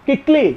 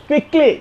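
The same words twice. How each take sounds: The two takes are said the same way.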